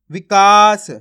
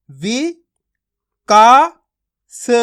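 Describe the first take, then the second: First: "विकास" joined up, with a loud drawn-out "का"; blended whole word. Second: "वि, का, स" as separate syllables with long pauses. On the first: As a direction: say "विकास" as one word, stretching the middle vowel loudly. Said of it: "शब्द का उच्चारण हो जाएगा". ("विकास" पूरा मिलाकर, "का" ज़ोर से खींचकर) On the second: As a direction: sound out "वि, का, स" one at a time, "का" loudest. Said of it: "एक एक अक्षर का उच्चारण करोगे". ("वि, का, स" एक-एक अक्षर अलग करके) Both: Shown as a demonstration.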